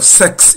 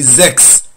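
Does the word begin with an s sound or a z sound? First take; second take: s sound; z sound. First: The word begins with a hissing s sound. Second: The word begins with a buzzing z sound. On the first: The speaker calls it wrong. "instead of sex" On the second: The speaker calls it right. "S is pronounced like Z"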